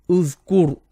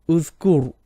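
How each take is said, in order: The two takes are said the same way.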